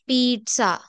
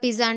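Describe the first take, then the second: First: The middle consonant sounds like ts. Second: The middle consonant sounds like z. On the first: The speaker calls it right. "ఇక్కడ జెడ్ బదులు టా sound వస్తుందండి" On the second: The speaker calls it wrong. "అందరూ పిజ్జా పిజ్జా అంటారు కదా"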